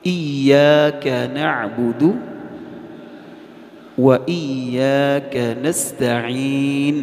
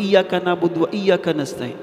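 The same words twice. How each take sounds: First: Slow chanted, each letter full; correct slow recitation. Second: Fast, higher, words run together; hasty. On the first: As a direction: recite it slowly and clearly. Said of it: "کیا بولنا ہے؟". (آہستہ اور درست تلاوت) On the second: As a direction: rattle it off in a rush. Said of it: "ہم جلدی میں بولتے ہیں". (جلدی میں تیز تیز) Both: Shown as a demonstration.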